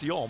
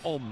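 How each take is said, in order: First: The name begins with a 'y' sound. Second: The name begins directly with a vowel. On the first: "whether it's Yom or Om" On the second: "seems to be the prevailing suggestion that it's Om"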